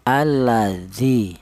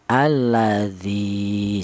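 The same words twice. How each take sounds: First: The final vowel is short, one beat. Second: The final vowel is long, two beats. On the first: "cara bacanya itu dibaca pendek, yaitu panjangnya satu harokat saja" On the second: "maka zi ini dipanjangkan dua harokat"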